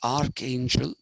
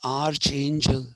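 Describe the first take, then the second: First: The middle consonant is a k sound. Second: The middle consonant is a ch sound. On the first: The speaker calls it right. "we say archangel because at that time in Greek there's no ch sound, there's only a k sound" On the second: The speaker calls it wrong. "we don't say archangel"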